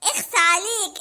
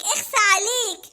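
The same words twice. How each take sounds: First: Said in the usual way. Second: Slow, laughing shame on you; laughing scold. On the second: Acted. Mona teasing Hamada, slow and laughing. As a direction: tease him while giggling.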